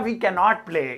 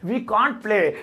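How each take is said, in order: First: Can and not are said as two separate words. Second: Can and not merge into one short syllable. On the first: "कैन नॉट भी बोलेंगे मतलब खोल के" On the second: "या तो कांट"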